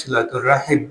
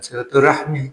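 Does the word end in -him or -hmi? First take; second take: -him; -hmi. First: The word ends with the sounds -him. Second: The word ends with the sounds -hmi. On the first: The speaker calls it right. "jadi yang tepat itu silaturahim" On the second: The speaker calls it wrong. "bukan silaturahmi"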